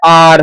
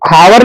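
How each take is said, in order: First: The word begins directly with a vowel sound. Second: The word begins with a spoken h sound. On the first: The speaker calls it right. "क्या पढ़ते हैं, आर" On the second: The speaker calls it wrong. "इसको हम हावर नहीं पढ़ते"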